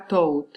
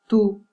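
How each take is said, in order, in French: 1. La voyelle n'est pas un son 'oo'. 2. La voyelle est un son 'oo'. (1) "On ne dit pas tout" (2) "U qui correspond au phonème OU"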